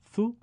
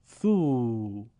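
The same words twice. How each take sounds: First: ثو as a brief "thu"; short vowel. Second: ثو as a drawn-out "thuu"; long vowel. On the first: Teacher reads the damma drill, ثو kept short. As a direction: say ثو short, one beat. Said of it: "کوتاه تلفظ بکنید". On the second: Teacher reads the madd drill, ثو held long. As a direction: stretch ثو over two beats. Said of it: "با واو مدی به صورت کشیده". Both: Shown as a demonstration.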